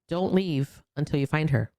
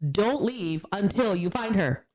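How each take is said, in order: First: It is said louder, at medium volume. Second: It is said loudest and most urgently.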